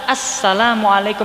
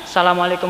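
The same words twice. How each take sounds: First: It begins with an 'as' sound before 'salam'. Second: It begins directly with 'sa', no 'as' sound. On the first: The speaker calls it right. "Seharusnya kan assalamualaikum, di situ ada alif lamnya" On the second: The speaker calls it wrong.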